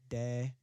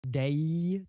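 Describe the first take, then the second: First: The vowel stays pure without a y glide. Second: The vowel ends with a gliding y sound. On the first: "not really put the Y on it" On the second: "Ending on any sounds that end with, like, E or I"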